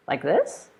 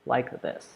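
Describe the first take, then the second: First: "this" lifts upward at the end; rising intonation. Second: "like this" drops low to the end; falling intonation. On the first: Teacher showing voice going up, rising intonation on "this". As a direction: let the voice climb on "this". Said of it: "make your voice go up". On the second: Teacher showing voice coming down, falling intonation on "this". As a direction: let the voice step down through "this". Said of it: "when to make it come down". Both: Shown as a demonstration.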